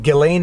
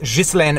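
First: The name is said with common English sounds. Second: The name is said with Quebec French sounds. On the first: This is how most people say the name. "I know people pronounce her name Ghislaine Maxwell" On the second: This is the speaker's own regional way of saying it. "but I am from Quebec. It is pronounced Ghislaine Maxwell"

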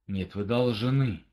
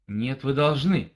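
First: It is said in a menacing, threatening tone. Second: It is said in a firm, commanding tone. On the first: Refusal will be punished. "это где-то угроза" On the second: It is a law to obey. "это где-то приказ"

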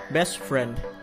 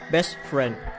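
No difference in how they are said.

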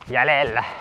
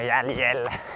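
First: It is said with a Central Finnish dialect stress. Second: It is said with standard Finnish stress. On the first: This is how a particular acquaintance would say it. "Antero sanoisi, että jäljellä" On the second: This is the ordinary way to say it. "eikä jäljellä"

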